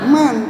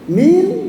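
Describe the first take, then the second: First: The word is said with an 'a' vowel. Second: The word is said with an 'i' vowel. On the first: The speaker calls it right. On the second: The speaker calls it wrong.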